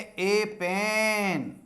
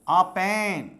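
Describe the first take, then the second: First: The article is a full, stressed 'ay' sound. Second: The article is a short, reduced 'uh' sound. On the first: "strong sound में जोर से बोलेंगे" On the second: "वीक sound"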